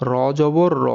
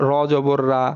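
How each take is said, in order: First: র as a full-mouthed "raw"; র with a back, rounded vowel; heavy rounded vowel. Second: রা with an open aa vowel; রা as "raa", not rounded "raw"; mistaken aa vowel. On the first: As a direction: round the final র, no aa. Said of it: "সঠিক উচ্চারণটা কি দেখেন". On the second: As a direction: end র জবর on an open রা. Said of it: "কিন্তু সেটা আসলে ভুল". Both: Shown as a demonstration.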